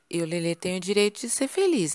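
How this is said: The voice rises at the end like a question. The speaker doubts having the right. The speaker calls it wrong. "A gente meio que faz uma pergunta ao invés de uma afirmação"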